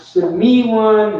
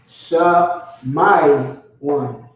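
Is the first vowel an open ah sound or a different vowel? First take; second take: different; ah. First: The first vowel is not an ah sound. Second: The first vowel is an open ah sound. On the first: The speaker calls it wrong. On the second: The speaker calls it right. "All ah sounds"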